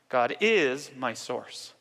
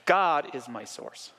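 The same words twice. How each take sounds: First: The word is carries the emphasis. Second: The word God carries the emphasis.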